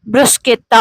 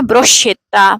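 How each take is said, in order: First: The middle consonants are a hard 'sk' sound. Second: The middle consonants are a soft 'sh' sound. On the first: The speaker calls it right. "इसकी आवाज भी ब्रुस्केता होगी" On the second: The speaker calls it wrong. "ना कि ब्रुश्केता"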